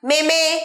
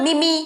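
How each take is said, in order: First: It has two syllables with eh vowels. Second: It ends with an extra ee vowel. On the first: "ভুলভাল উচ্চারণ" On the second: "ভুলভাল উচ্চারণ"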